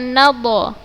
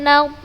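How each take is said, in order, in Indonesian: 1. D terakhir memantul dengan vokal tambahan. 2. D terakhir berhenti dengan jelas tanpa gema. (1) "bukan naddo" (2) "kan dia hanya dibaca seperti itu"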